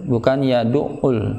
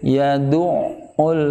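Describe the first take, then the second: First: The middle consonant is short and single. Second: The middle consonant is held and doubled. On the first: The speaker calls it wrong. "seolah menghilangkan ... syiddahnya" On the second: The speaker calls it right. "perlu ditekankan lagi untuk pemisahan ... dua huruf yang sama"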